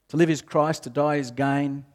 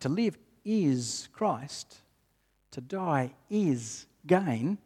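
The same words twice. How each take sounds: First: It is read in a flat, mechanical tone. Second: It is read in a firm, assured tone. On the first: The reader recites it without personal conviction. The speaker calls it wrong. "sometimes we read it in a really rote sort of way" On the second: The reader fully believes the statement. The speaker calls it right. "So how do we read it confidently?"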